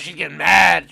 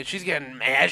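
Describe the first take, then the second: First: She's getting mad said much louder; louder mock alarm. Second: Said in the usual way. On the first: Shown as a demonstration. Commenting on the arguing character, loud mock alarm. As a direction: raise the volume as if alarmed.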